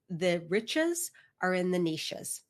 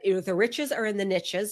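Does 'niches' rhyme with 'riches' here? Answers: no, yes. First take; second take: no; yes. First: 'Niches' is said the Canadian way, unlike 'riches'. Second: 'Niches' is said to rhyme with 'riches'. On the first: "I'm going to be Canadian with that because we say niche" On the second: "if you like to say it that way"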